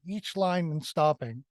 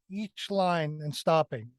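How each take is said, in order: Both takes have the same delivery.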